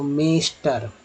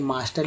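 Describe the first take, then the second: First: The first vowel sounds like 'eh'. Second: The first vowel sounds like 'ah'. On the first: The speaker calls it wrong. "इसको मैंने क्या पढ़ा गलत" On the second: The speaker calls it right. "मास्टर लिखा यानी कि आ है"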